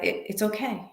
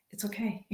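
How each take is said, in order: First: Said in the usual way. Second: Soft whisper to herself; real whispered it's okay; whispered self-reassurance. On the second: Real, not acted. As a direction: breathe it out to calm yourself down. Calming herself when running late.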